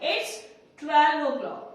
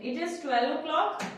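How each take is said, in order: First: 'It is' is shortened to one syllable. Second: 'It is' is said as two full words. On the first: "ऐसे short में भी बोल सकते हैं" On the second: "ऐसे भी आप लिख सकते हैं"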